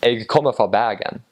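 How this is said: It is said in a Western Bergen dialect.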